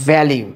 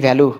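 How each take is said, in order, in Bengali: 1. এটি 'lyoo' উচ্চারণে শেষ হয়। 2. এটি সাধারণ 'loo' উচ্চারণে শেষ হয়। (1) "কিন্তু উচ্চারণ কি হবে" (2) "আমরা বলি ভ্যালু"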